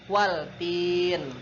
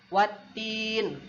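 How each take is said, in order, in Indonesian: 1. L dibunyikan sebelum T. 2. L-nya tidak dibunyikan; T-nya dibaca ganda. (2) "Jadi bacanya"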